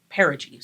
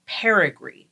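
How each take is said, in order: First: Said in the usual way. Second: Perigee slipped into "perigree"; mispronounced perigee. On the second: Real, not acted. Co-host explaining supermoons fumbles the term, perigee mispronounced as "perigree". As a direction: say perigee with a stray R, as "PAIR-uh-gree". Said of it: "Wrong word".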